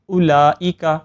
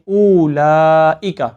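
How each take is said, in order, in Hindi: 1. लाम की आवाज़ को बहुत कम देर तक रोका जाता है। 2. हमज़ा की आवाज़ को बहुत ज़्यादा लंबा खींचा जाता है। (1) "लफ्ज़ लाम के अंदर लंबाई की मिकदार में कमी कर देते हैं" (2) "हमज़ा को लंबा कर देते हैं"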